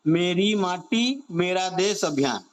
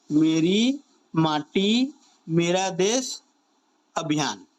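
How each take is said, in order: First: Said in the usual way. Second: Word by word, with pauses between; slow dictation. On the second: Shown as a demonstration. Teacher repeating a campaign name for students to remember, slow dictation. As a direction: spell out the name slowly, piece by piece.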